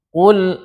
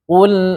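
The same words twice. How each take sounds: First: The l sound is heavy and dark. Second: The l sound is light and thin. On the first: The speaker calls it wrong. "itu lamnya ikut tebal karena mengikuti tebalnya qaf, tidak boleh" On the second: The speaker calls it right. "qafnya aja yang tebal, lamnya nggak boleh"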